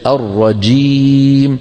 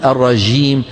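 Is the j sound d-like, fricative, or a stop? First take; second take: stop; fricative. First: The j is a full stop, sound held back. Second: The j is soft, with flowing friction. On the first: The speaker calls it right. "هكذا الجيم الفصيحة" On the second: The speaker calls it wrong. "لا نقول الرجيم. هذه الجيم شو؟ رخوة"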